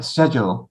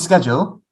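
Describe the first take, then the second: First: The word is said with the British pronunciation. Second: The word is said without the British pronunciation. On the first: "the actual British way is like schedule" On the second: "I say schedule"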